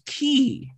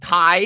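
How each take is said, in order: First: The name rhymes with 'see'. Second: The name rhymes with 'eye'. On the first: "it's not fucking Key" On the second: "your name is Kai? ... how the fuck you read it as Kai?"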